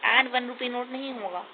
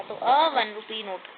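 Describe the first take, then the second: First: "and वन rupee note" with "an" run into वन, the wrong form; the incorrect "an" before वन, marked as a mistake; wrong an one rupee note. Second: Slow, "a वन rupee note" with a plain "a" before वन; a one rupee note. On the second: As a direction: say "a" before वन, never "an", slowly. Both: Shown as a demonstration.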